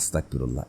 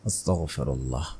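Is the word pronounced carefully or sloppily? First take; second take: sloppily; carefully. First: The word is pronounced with careless, altered articulation. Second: The word is pronounced with careful, full articulation. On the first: The speaker calls it wrong. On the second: The speaker calls it right.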